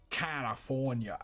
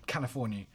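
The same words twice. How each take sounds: First: Slow, stretched-out American California; exaggerated American accent. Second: Tentative go at an American California; attempted American accent. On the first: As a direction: draw out each syllable in a mock American accent. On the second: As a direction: try out an American accent, unsure. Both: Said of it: "I can't even think about American".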